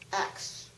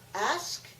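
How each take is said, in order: First: The word ends with a k then s sound. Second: The word ends with an s then k sound. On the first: "what Naomi said" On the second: "what I said"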